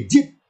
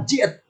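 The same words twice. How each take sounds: First: JIT as one syllable, "jit"; shortened reading. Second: JIT read as "ji-et"; pausal reading. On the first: Teacher gives the resulting short form, one-syllable "jit". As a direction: say JIT short, without a second vowel. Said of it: "dibaca wakon jit, jadi jit". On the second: Teacher repeats the reading at a stop, pausal "ji-et". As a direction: split JIT into "ji-et". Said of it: "dibaca wakon jit". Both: Shown as a demonstration.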